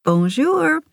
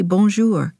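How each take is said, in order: First: High, lilting greeting swooping upward; showy French greeting. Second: Said in the usual way. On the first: A narrator's reading. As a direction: sing it out brightly to show off your French. Showing off French to mother.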